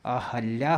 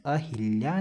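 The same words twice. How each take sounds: First: अहल्या said a-HAL-ya; "ha" middle syllable. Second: अहिल्या said a-HIL-ya; wrong "hi" syllable. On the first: Teacher giving the correct word, "ha" in the middle. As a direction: sound a clear "hal" inside अहल्या. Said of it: "अहल्या होता है". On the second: Teacher rejecting the common error, "hi" in the middle. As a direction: sound a clear "hil" inside अहिल्या. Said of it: "अहिल्या नहीं होता". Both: Shown as a demonstration.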